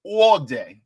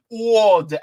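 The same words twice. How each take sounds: First: A light New York accent on "All day". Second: New York accent, drawn out "All day". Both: Shown as a demonstration. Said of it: "I gotta say it like a New Yorker".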